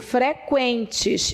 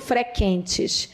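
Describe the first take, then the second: First: The u after q is pronounced aloud. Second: The u after q is left silent. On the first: The speaker calls it right. "Eu digo" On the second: The speaker calls it wrong. "eu não digo"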